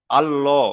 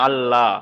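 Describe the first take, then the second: First: আল্লাহ with a heavy, rounded "llo"; full heavy L. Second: আল্লাহ with a thin, open "lla"; thin light L. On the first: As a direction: say আল্লাহ as "Allo", dark and full. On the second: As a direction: say আল্লাহ as "Alla", L kept light. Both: Shown as a demonstration. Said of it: "পুর আর বারিক".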